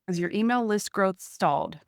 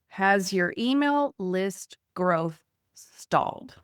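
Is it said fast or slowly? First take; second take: fast; slowly. First: It is said fast. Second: It is said slowly.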